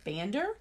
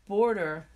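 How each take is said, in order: First: "bander" said as a puzzled question with a rising end; "bander" questioned, tune rising; puzzled slip. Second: "Border" said plainly as the right word, with a "b-or-der" vowel; "Border" stated matter-of-factly; self-correction. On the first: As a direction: doubt your own word, ask "bander?". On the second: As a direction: correct yourself with a settled "Border". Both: Real, not acted.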